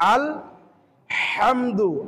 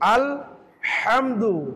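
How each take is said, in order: No difference in how they are said.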